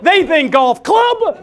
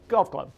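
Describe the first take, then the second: First: "golf club" said slow, loud and high, like a whole estate; grand golf club. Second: "golf club" said low and quick, a mere stick; small golf club. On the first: Speaker showing the audience the king's idea of a golf club, slow and grand. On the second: Speaker showing the audience our idea of a golf club, low and small. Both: Shown as a demonstration. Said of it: "Kings think differently than we do".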